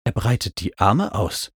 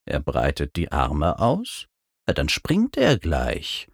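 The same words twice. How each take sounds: First: Said in the usual way. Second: Low, quiet questioning reply; unimpressed Mac. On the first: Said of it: "berichtete ich Mac". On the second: A narrator's reading. Flying mount answers the narrator's report, unimpressed.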